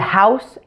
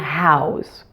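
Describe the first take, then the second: First: The word ends with a hissing S sound. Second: The word ends with a buzzing Z sound. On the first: It is used as a noun. "the S E endings of nouns and adjectives will be pronounced with an S sound" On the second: It is used as a verb. "the S E endings on the verbs will be pronounced with a Z sound"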